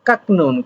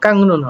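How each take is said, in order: First: The first syllable ends in a k sound. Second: The first syllable ends in an ng sound. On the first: The speaker calls it wrong. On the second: The speaker calls it right.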